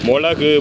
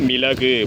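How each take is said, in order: First: The word begins with the sound 'mo'. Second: The word begins with the sound 'mi'. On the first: The speaker calls it wrong. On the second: The speaker calls it right.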